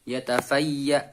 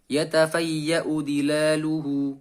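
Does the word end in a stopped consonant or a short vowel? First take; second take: stopped consonant; short vowel. First: The final hamzah is pressed and the word stops. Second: The final hamzah takes a short vowel and continues. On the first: The reader pauses at this word. "kalau diwakofkan yatafayya ... Ditekan" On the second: The reader continues into the next word. "kalau diwasolkan maka dibaca pendek"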